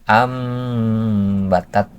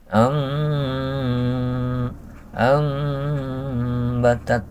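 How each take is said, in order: First: The m is made with the lips gently closed. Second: The m is made with the lips slightly open. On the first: "yang ditutup semua bibirnya, tapi jangan terlalu keras" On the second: "kedua bibirnya itu mas, tidak ditutup, tadi artinya disisain"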